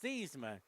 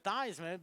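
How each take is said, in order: First: The first syllable does not rhyme with Heis. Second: The first syllable rhymes with Heis. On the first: This is the family's original pronunciation. "his original pronunciation was Thiesman" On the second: This was changed to match a trophy's name. "they changed his pronunciation to Theismann"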